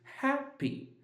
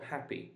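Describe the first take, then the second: First: The stress is on the first syllable. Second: The stress is on the second syllable. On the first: The speaker calls it right. "So ha is louder than p" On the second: The speaker calls it wrong. "it's not happy"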